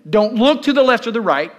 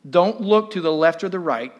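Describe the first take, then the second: First: It is spoken with strong feeling and energy. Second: It is spoken in a plain, unemotional way. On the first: The speaker calls it right. "Let me start again" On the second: The speaker calls it wrong. "I'm not saying it with an emotion that Cliff did that Sunday"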